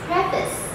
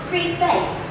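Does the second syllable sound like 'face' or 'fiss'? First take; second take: fiss; face. First: The word sounds like pref plus iss. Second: The word sounds like pre plus face. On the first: The speaker calls it right. "this word should be pronounced as preface" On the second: The speaker calls it wrong. "It looks like preface because you have pre here and face here"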